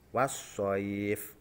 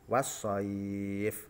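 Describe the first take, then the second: First: The vowel before the final sound is held briefly. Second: The vowel before the final sound is held moderately. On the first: "Ini yang contoh satu alif" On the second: "dua alif"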